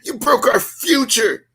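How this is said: It is said in a put-on female voice. "let me do the voice"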